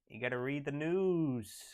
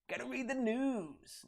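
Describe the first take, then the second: First: It is said in his own normal voice. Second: It is said imitating R T's voice.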